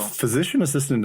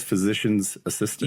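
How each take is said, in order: First: "physician assistant" said with no possessive S; title without S. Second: "physician's assistant" with the S on "physician's"; popular mistaken title. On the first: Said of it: "doesn't sound right". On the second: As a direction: say "physician's assistant" as everybody does, S included. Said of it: "everybody says physician's assistant". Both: Shown as a demonstration.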